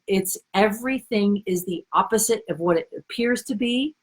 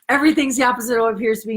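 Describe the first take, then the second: First: The phrase is said at a slower pace. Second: The phrase is said at a quicker pace.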